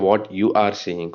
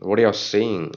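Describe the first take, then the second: First: 'You are' is said as two full words. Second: 'You are' is contracted to 'you're'. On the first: The speaker calls it wrong. "Don't say what you are saying" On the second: The speaker calls it right. "Contract பண்ணி பேசும்போது it sounds really cool"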